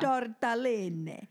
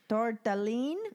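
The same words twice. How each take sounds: First: The final vowel is clearly pronounced. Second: The final vowel is dropped. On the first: "I forgot to speak Italian" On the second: "if it's Italian-American, you wouldn't pronounce the last vowel"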